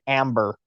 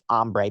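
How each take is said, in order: First: It is said like the English word amber. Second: It is said with an 'om' sound, Spanish-like. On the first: This is how the voice assistant understands it. "like the name amber or the color amber" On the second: This is the original pronunciation. "it's really supposed to be ombre"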